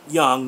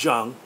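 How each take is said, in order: First: The name begins with a Y sound. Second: The name begins with a J sound. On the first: This is how it is said in America. "I've always heard it pronounced Young" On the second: This may be how other countries say it. "not Jung"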